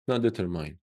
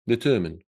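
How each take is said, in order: First: The last syllable sounds like 'mine'. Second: The last syllable sounds like 'min'. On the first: The speaker calls it wrong. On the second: The speaker calls it right.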